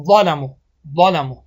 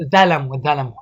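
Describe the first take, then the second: First: ظالمو with a heavy emphatic ظ; correct pronunciation. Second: ظلمو with a light ذ sound; wrong pronunciation demo. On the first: Teacher modelling the right way. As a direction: say ظالمو with a thick full ظ. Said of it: "نیا کنین". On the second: Teacher showing students the mistake. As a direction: say ظلمو as ذلمو, thin and light. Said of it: "ذا بگیم، ظلمو". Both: Shown as a demonstration.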